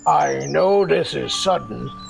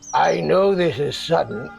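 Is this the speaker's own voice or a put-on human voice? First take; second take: put-on human; own voice. First: It is said in a put-on human voice. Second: It is said in the speaker's own voice.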